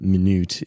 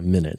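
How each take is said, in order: First: The stress is placed as in the adjective. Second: The stress is placed as in the noun. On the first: It means small. "minute is the adjective meaning small" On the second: It means a small part of an hour. "if we wanted to make it a noun, we would change it to a minute"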